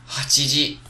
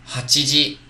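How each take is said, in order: No difference in how they are said.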